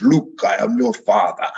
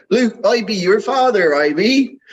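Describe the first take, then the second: First: A light hint of a booming villain, barely changed from his own voice; just nod at the big movie line; Darth Vader. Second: Mock West Country burr, much higher; West Country accent. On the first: Host quoting the famous Star Wars line, lightly voiced villain. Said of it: "With a big pounding voice". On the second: Host joking how the line would sound from Bristol, in a hammed-up West Country accent. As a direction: play the Vader line as a rustic West Country lad. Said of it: "in a West Country accent".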